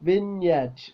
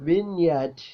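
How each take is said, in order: No difference in how they are said.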